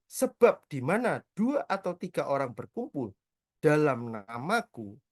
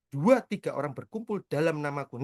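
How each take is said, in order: First: Slow, measured reading of the verse; scripture reading. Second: Said in the usual way. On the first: Acted. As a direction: read each word slowly like holy text. Reading the Bible verse aloud.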